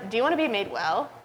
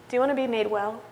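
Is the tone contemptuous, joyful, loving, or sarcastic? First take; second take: sarcastic; loving. First: The question sounds sarcastic and mocking. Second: The question sounds warm and loving. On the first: The asker doubts the man really wants it. "Is it sarcasm?" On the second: The asker cares deeply for the man. "Is it love?"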